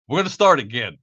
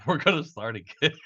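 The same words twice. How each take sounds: First: Said in the usual way. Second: Cracking up while talking; laughing. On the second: Real, not acted. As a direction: let the sentence dissolve into real laughter. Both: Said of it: "I'm trying to laugh it off".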